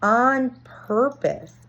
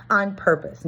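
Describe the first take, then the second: First: "on purpose" drawn out slowly and higher, each word weighted; slow emphasis. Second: Said in the usual way. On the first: Shown as a demonstration. Defining facetious for viewers, stressing "on purpose" slowly. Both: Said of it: "On purpose, not accidental".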